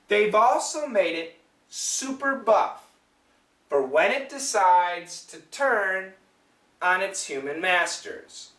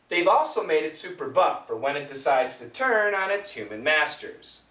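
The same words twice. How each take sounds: First: The sentence is spoken slowly. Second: The sentence is spoken at normal speed. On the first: "One more time slowly" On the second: "Now let's say it normal"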